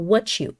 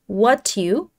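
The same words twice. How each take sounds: First: The t and y sounds blend into ch. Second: The t and y sounds stay separate. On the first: "но связывается это таким образом, что what you" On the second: "What you, могли бы мы сказать"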